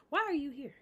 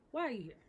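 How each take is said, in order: First: Louder, higher, demanding why she came; indignant outburst. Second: Said in the usual way. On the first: Real, not acted. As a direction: call her out hard for showing up. Outraged at uninvited guest.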